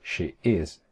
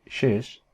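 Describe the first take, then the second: First: "She is" as two distinct words; uncontracted "She is"; full form. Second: "she's" as a single syllable; one-word "she's"; contracted form. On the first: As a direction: keep "She" and "is" apart. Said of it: "En vez de decir". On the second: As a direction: run it together as "she's". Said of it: "decían". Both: Shown as a demonstration.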